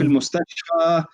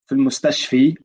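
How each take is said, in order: First: The last word ends in an 'a' vowel. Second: The last word ends in an 'i' vowel. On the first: The speaker calls it right. "We say" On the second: The speaker calls it wrong. "we don't say"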